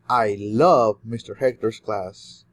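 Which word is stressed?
love. The word love carries the main stress. The feeling is love rather than another emotion. "you love a lot of things about mister Hector, and you do love more than other emotions"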